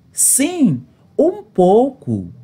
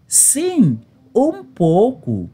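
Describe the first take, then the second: No difference in how they are said.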